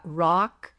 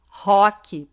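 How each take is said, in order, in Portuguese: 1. Ela é pronunciada com sotaque do inglês americano. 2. Ela é pronunciada com sotaque do português brasileiro.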